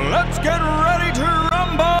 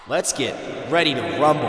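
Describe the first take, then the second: First: It is said loudly, with big energy. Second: It is said flatly, with little energy.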